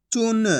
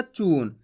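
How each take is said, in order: First: चून with a short u; short vowel. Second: चून with a drawn-out long oo; long vowel. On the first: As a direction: say चून without stretching the vowel. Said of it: "तो इतना ही खींच के पढ़ेंगे". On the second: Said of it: "ऐसे नहीं पढ़ना". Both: Shown as a demonstration.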